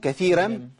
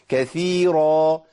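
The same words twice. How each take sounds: First: The r sound is light and thin. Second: The r sound is heavy and full. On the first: It follows a different reading tradition. The speaker calls it wrong. "لو قلت ايه كثيرا كده دخلت في ورش" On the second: It follows the intended reading tradition. The speaker calls it right. "لازم افخم الراء"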